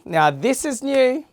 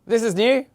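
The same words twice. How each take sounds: First: High, bright, rising on new; excited. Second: Said in the usual way. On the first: Shown as a demonstration. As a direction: sell the word new like an ad. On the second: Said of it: "Wow, this is new".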